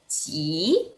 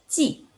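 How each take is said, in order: First: It is said with the third tone. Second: It is said with the fourth tone. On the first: "Nada tiga" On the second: "Nada empat"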